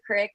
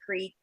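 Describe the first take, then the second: First: The vowel is short, like crick. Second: The vowel is long, like creek. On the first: This is how the speaker's mother says it. "she says crick" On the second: This is how the speaker says it. "I say creek because I say it properly"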